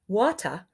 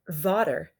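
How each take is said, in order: First: The final er sound is left out. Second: The first sound is v instead of w. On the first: "They're not making that er sound" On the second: "They're saying v instead of w"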